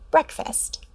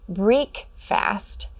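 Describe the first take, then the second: First: The first syllable rhymes with 'neck'. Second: The first syllable rhymes with 'make'. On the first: The speaker calls it right. "correct their pronunciation to breakfast" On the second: The speaker calls it wrong. "read as break-fast"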